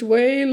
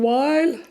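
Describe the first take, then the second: First: The vowel is said like 'ay' in 'day'. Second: The vowel is said like 'eye' in 'my'. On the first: "English whale" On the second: "Australian while"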